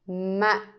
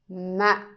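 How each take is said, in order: First: The syllable is cut short and abrupt. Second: The syllable is cut short and abrupt.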